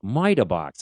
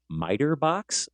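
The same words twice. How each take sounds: First: It is said in a thick Boston accent. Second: It is said in a plain, neutral accent.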